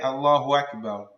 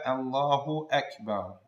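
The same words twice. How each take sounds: First: Akbar starts with no glottal stop. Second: Akbar starts with a clear glottal stop. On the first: The speaker calls it wrong. "erasing the Hamza of Akbar, like some people say" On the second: The speaker calls it right. "make sure to pronounce the Hamza"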